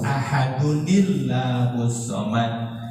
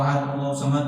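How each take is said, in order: First: The ending is voiced and linked into the next word. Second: The word ends flat without a voiced linking ending. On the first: The speaker calls it right. "Kalau mau disambung itu nggak apa-apa, tapi harus dihidupkan" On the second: The speaker calls it wrong. "nggak ketahuan tuh baca kulhu ini disambung apa dipisah"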